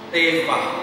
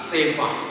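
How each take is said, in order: Both takes have the same delivery.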